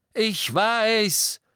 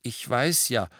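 First: Loud, high furious roar; Harry roars at the family. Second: Said in the usual way. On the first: Acted. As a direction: bellow it at them. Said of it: "brüllte Harry".

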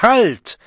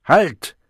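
First: Very high, full-force cry; louder ringing shout. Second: High, loud cry to stop; loud, ringing shout. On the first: The Savage halts the handout, shouting with full force. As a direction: shout it at the top of your range. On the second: The Savage halts the handout, shouting loudly. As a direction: shout it out sharply. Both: A narrator's reading. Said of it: "schrie der Wilde laut und schallend".

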